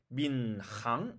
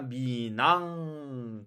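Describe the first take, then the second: First: The h sound is clearly pronounced. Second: The h sound is nearly silent and linked. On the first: "우리는 방금 전에 민항 이렇게 읽었는데" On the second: "흐 발음이 거의 나지 않고"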